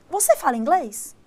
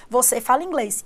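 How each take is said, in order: First: "Você fala inglês" lifted as a question; question intonation. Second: Said in the usual way. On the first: Shown as a demonstration. Teacher shows how a Portuguese question sounds, question intonation. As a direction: let "inglês" carry the asking tune. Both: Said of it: "Pra eu fazer essa entonação".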